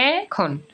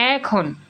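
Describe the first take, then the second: No difference in how they are said.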